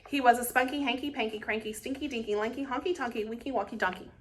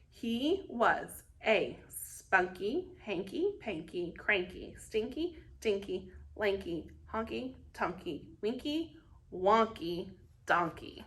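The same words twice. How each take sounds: First: It is said very fast. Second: It is said slowly.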